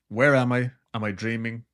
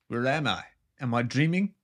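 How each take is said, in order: First: Said in the usual way. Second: Put-on light South African accent; a hint of a South African woman. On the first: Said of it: "Or in her South African accent". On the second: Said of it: "in her South African accent".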